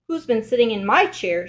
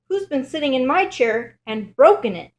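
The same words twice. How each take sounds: First: Lightly voiced mother bear; a hint of mama bear, leaning on "my". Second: Higher, louder little bear voice; upset bear cub, pitched up, punching "broken"; Baby Bear. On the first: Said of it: "Mother Bear looks at her chair". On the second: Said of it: "says Baby Bear". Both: A narrator's reading.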